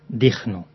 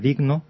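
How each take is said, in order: First: The consonant before N is a rasping J sound. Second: The consonant before N is a soft G sound. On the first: The speaker calls it wrong. "digno, con una J" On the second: The speaker calls it right. "en lugar de digno"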